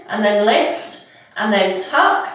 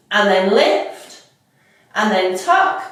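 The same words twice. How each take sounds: The two takes are said the same way.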